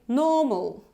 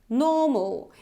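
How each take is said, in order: Both takes have the same delivery.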